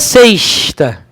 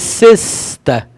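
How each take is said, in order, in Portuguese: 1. O "s" soa como "sh", chiado. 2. O "s" é um "s" sibilante simples. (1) "Não é sexta" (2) "O S tem som sibilante"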